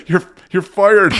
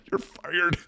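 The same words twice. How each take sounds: First: A strained you're fired pushed out through laughter; laughing, breathless. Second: A high, mock-stern you're fired; mock firing. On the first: Retold or imitated. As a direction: try to fire her but laugh too hard. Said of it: "I couldn't even get it out 'cause my chest hurt". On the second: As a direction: play the boss firing her as a joke. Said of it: "I wanted to be like".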